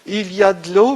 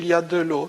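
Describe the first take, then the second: First: The voice rises at the end, like a question. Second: The voice falls at the end, like a statement. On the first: It asks whether there is water. "poser la question sur la présence de l'eau" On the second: It states that there is water. "une simple affirmation"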